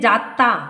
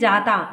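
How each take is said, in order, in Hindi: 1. बीच का व्यंजन दोहरा है और देर तक खिंचा हुआ बोला जाता है। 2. बीच का व्यंजन एकल है और छोटा बोला जाता है। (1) "पश्चिमी हिंदी में जाता" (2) "मानक हिंदी में जाता"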